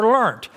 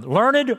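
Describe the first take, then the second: First: "learnt" as a single syllable with a final T; one-syllable pronunciation. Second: "learned" as two slow syllables, LUR-ned; two-syllable pronunciation. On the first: Preacher contrasts regional ways to say a word, one-syllable "learnt". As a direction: say "learnt" as one beat, LURNT. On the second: Preacher contrasts regional ways to say a word, two-syllable "learned". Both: Shown as a demonstration. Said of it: "depending on what part of the country".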